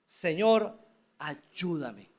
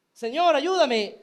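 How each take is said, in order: First: Pleading. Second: Loud, high desperate cry to the Lord. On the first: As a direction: beg low, kneeling before the Lord. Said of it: "ahora suplica". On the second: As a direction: shout it like a mother begging for help. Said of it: "sino que se mantuvo gritando". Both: Acted.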